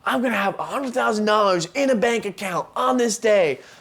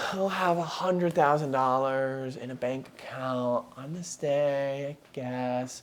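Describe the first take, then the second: First: It is said with strong, confident conviction. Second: It is said flatly, with doubtful, weak conviction.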